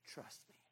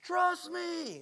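First: It is said in a small, soft voice. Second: It is said in a loud, booming voice.

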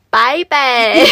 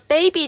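First: The first vowel sounds like 'eye'. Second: The first vowel sounds like 'ay'. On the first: "他们的A 会发这个音" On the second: "他们的baby 就会变成拜拜"

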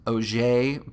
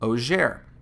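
First: The name is given a French pronunciation. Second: The name is given an English pronunciation. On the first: "The company was originally founded in France, so I'm going to assume that it's pronounced Oger" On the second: "but that sounds weird, so I'm just going to call it Oger"

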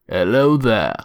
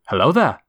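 First: It sounds nasal and sick, like a cold. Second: It imitates young Obi-Wan's voice.

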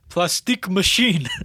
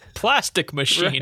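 First: It is said in the homeless man's foreign-sounding accent. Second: It is said in the speaker's normal accent.

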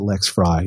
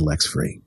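First: The second name ends with an 'eye' vowel. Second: The second name ends with an 'ee' vowel. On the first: This is how the owner of the name says it. "I pronounce it Lex Fry" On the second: This is how some other people say it. "Some say Lex Free"

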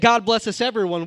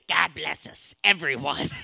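First: It is said in the speaker's ordinary voice. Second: It is said in a put-on character voice. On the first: "So we don't just say" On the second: "We say it with the Robin the Frog voice"

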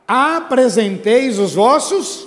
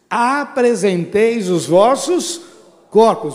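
First: It is said louder and more forcefully. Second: It is said at normal loudness.

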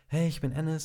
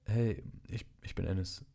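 First: It is said confidently and cheerfully. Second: It is said hesitantly and insecurely.

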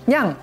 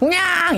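First: The meow is short and fairly soft. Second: The meow is long and drops to a low pitch.

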